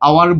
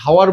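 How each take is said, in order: First: The word starts with a vowel sound. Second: The word starts with an h sound. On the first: The speaker calls it right. "আওয়ার বলি" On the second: The speaker calls it wrong. "আমরা হাওয়ার বলি না"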